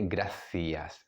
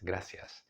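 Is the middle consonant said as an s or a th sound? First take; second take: th; s. First: It has a Spain th sound. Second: It has a Latin American s sound.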